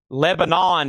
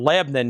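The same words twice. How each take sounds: First: Every syllable of the name is said clearly. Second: The name is squeezed short in a Southern accent. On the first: The speaker is not from the area. "if you're from out of town" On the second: The speaker is from the area. "if you're local. One syllable. Southern accent pronunciation"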